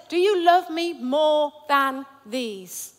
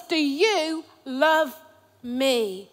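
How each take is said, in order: First: Slow, drawn out; Jesus pressing Peter, slow and searching; slow, weighted question. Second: Slow question. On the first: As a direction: lean on each word slowly. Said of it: "It says". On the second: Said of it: "I've not got it right there". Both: Shown as a demonstration.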